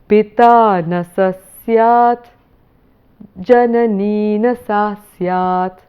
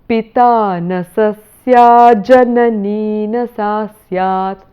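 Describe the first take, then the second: First: It is broken up with a pause between phrases. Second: It is said in one breath without pausing.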